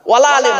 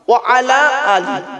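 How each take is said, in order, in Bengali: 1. 'wala' হিসেবে একসাথে বলুন, শেষ হবে 'ale' দিয়ে। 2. 'wa' আর 'ala' আলাদা করে বলুন, শেষ হবে 'ali' দিয়ে।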